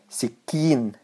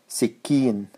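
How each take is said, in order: Both takes have the same delivery.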